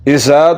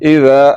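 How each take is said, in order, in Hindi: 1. बीच के व्यंजन में तीखी सीटी जैसी सनसनाहट है। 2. बीच का व्यंजन नरम है, इसमें सीटी जैसी सनसनाहट नहीं है। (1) "सीटी की आवाज को निकालते हुए पढ़ रहे हैं" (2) "बगैर सीटी के पढ़ना है और जुबान की नोक को सनाया उलिया के अंदरूनी किनारे के साथ लगाना है"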